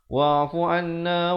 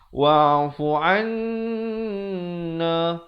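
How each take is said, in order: First: The nasal n sound is cut short. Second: The nasal n sound is held long. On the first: The speaker calls it wrong. "Ramai orang dia tak dengungkan" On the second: The speaker calls it right. "Yang betulnya wa'fu anna baru masuk na"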